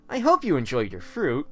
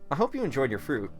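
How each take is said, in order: First: It is said with thick sarcasm. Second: It is said without much sarcasm. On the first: The speaker calls it right. "I make my tone thick with sarcasm" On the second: The speaker calls it wrong. "Wait, let me redo that line"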